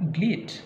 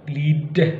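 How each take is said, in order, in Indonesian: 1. Konsonan akhirnya terdengar seperti t tak bersuara. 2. Konsonan akhirnya terdengar seperti d bersuara. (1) "tapi memang bleed"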